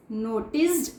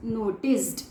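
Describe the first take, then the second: No difference in how they are said.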